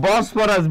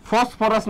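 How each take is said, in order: First: বসফরাস begun with a clear B; correcting the name to বসফরাস, B not F; corrected B sound. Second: ফসফরাস begun with an F sound; the wrong name, ফসফরাস with F for B; mistaken F sound. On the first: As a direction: say বসফরাস with "bo" at the start. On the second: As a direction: say ফসফরাস with "fo" at the start. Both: Shown as a demonstration. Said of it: "ফসফরাস না কিন্তু".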